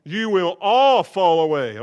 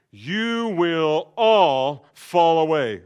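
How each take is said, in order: First: Louder with "all" punched; firm repeated warning; stress on all. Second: Slow, louder, all stretched out; drawn-out warning with "all" weighted; stress on all. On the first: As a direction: hit "all" again. Repeated for emphasis. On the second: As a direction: lean hard on "all". Jesus' prophecy, stressed. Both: Acted.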